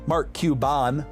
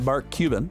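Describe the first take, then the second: First: The name is pronounced in an altered way. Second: The name is pronounced in the usual way.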